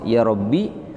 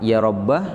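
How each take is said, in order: First: The word ends in a short i vowel. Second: The word ends in a short a vowel. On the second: "boleh dibaca fathah"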